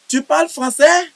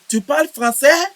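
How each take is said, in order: No difference in how they are said.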